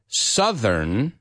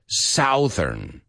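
First: The first vowel sounds like in 'sun'. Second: The first vowel sounds like in 'south'. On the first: The speaker calls it right. "So, southern" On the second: The speaker calls it wrong. "not southern. ... The word south is south"

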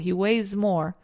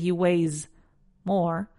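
First: The final s of weighs runs into more. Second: Weighs and more are said as separate words. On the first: The speaker calls it right. "Difícil de contraer, o sea, de juntar, but it's not impossible" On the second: The speaker calls it wrong. "I don't say"

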